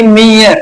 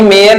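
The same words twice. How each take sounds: First: मीयर with a long 'ee', 'mee-yar'; corrected pronunciation. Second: मेयर with an 'e' vowel, 'me-yar'; rejected pronunciation. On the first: Teacher corrects the students' reading, demonstrated long-ee मीयर. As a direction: hold the ee in मीयर, gliding into yar. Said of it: "इसको हम क्या पढ़ेंगे". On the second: Teacher shows students the reading to avoid, rejected e-vowel मेयर. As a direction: say मेयर with e in place of long ee. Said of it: "मेयर नहीं पढ़ेंगे". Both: Shown as a demonstration.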